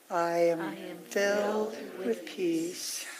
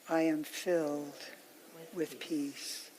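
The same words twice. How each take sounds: First: It is said a little more quietly than before. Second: It is said at the softest level of all. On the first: "let it get softer and softer" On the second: "let it get softer and softer"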